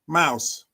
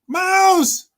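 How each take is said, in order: First: It is said quietly at a low pitch. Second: It is said loudly at a high pitch.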